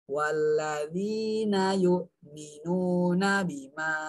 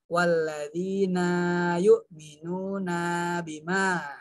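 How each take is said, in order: First: The 'na' vowel is kept short. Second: The 'na' vowel is dragged out long. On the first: The speaker calls it right. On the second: The speaker calls it wrong.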